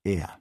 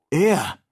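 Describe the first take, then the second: First: Said in the usual way. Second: Laut und hoch gerufen; Ausruf. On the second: A narrator's reading. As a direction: ruf es erregt heraus. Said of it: "rief nun auch Ferguson". (laut ausrufend)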